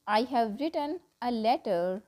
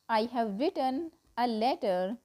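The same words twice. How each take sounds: The two takes are said the same way.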